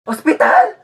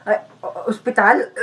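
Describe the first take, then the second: First: High, startled question; mock-shocked yelp; alarmed. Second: Weak, faltering question in a fake sick voice; put-on feeble stammer; feigning sickness. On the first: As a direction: blurt it out, forgetting to sound sick. Faker alarmed at hospital threat. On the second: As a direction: catch yourself and sound poorly.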